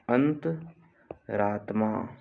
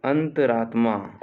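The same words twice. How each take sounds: First: "अंतरात्मा" slow, pause after अंत; split slowly for dictation. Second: Said in the usual way. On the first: Shown as a demonstration. Teacher dictating a spelling, अंतरात्मा slowly in two parts.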